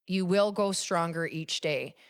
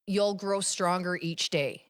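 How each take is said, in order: First: "will" given firm, deliberate emphasis; stress on WILL. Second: Said in the usual way. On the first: Shown as a demonstration. Repeating the affirmation to affirm it, stress on "will". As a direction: lean on "will", spoken in full.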